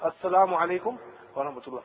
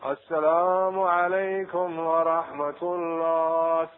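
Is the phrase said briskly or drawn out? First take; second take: briskly; drawn out. First: The phrase is said at a brisk, normal pace. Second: The phrase is said slowly, with the sounds stretched out. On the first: The speaker calls it right. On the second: The speaker calls it wrong.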